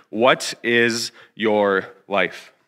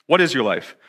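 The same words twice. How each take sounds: First: Very slow, word by word; deliberate key question. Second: Said in the usual way. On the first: Real, not acted. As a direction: space out each word for weight. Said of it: "continue to remind you of, of this question". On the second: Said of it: "of this question".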